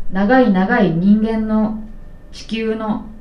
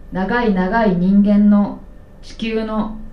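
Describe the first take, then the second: No difference in how they are said.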